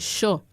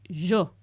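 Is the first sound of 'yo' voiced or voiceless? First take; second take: voiceless; voiced. First: The first consonant is a voiceless hissing sound. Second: The first consonant is a voiced buzzing sound. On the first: This is how young speakers say it. "la palatal es completamente sorda para los jóvenes" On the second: This is how very old speakers say it. "personas muy añosas que dicen yo"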